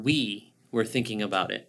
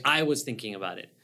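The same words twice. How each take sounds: First: "we" marked out, the rest plain; stress on WE. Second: "I" as the word that stands out; stress on I. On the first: Correcting I to we for a listener, stress on "we". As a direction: set "we" apart as the key word. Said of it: "Not I". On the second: Explaining the wrong pronoun to a listener, stress on "I". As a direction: lean on "I", then let the rest fall away. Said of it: "that I starts going in their heads". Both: Shown as a demonstration.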